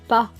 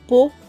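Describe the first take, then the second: First: The vowel is said as an open 'a'. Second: The vowel is said as an 'o'. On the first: "Le son A" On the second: "se dit O"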